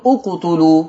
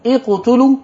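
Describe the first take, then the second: First: اقتلوا begun with "u", correctly; hamza with damma. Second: اقتلوا begun with "i", wrongly; hamza with kasra. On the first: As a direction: start اقتلوا with a "u" sound. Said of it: "ولا تقول". (اقتلوا بضم همزة الوصل) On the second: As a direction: start اقتلوا with an "i" sound. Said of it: "هتقول". (اقتلوا بكسر همزة الوصل) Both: Shown as a demonstration.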